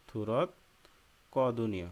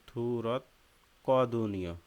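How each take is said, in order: Both takes have the same delivery.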